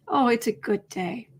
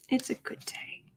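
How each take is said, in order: First: Said in the usual way. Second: A private whispered echo to herself. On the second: Real, not acted. Host echoing her own words to herself, whispered. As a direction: repeat it in a soft unvoiced whisper.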